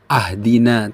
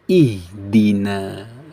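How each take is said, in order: First: The word begins with an a vowel. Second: The word begins with an i vowel. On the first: The speaker calls it wrong. "bukan ahdina" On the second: The speaker calls it right. "tapi ihdina"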